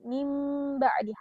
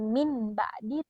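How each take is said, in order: First: A held, nasal m sound comes before the b. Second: A plain n sound comes before the b. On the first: The speaker calls it right. "tapi mim ba'di, harus ditahan dan melebur" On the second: The speaker calls it wrong. "bukan min ba'di"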